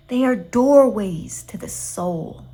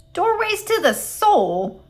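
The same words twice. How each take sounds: First: Slow, sugary "doorways to the soul"; too sweet, dreamy. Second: "Doorways to the soul?" flung up much higher, slow and incredulous; sputtered in disbelief. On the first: Gladys praising accordions to Eugenia, slow and syrupy. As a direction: savour "doorways to the soul" slowly, syrupy and mystical. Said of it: "in her too sweet voice". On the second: Eugenia throwing Gladys's words back at her, sputtering. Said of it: "sputtered Eugenia". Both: A narrator's reading.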